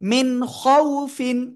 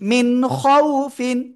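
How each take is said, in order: Both takes have the same delivery.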